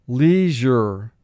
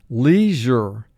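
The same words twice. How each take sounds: Both takes have the same delivery.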